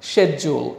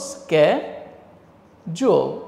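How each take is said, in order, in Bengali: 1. শব্দটি sh ধ্বনি দিয়ে শুরু হয়। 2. শব্দটি sk ধ্বনি দিয়ে শুরু হয়। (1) "এভাবে বলল শেজুল" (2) "এটা তো শেজুল হবে না, এটা হবে স্ক্যাজুয়াল"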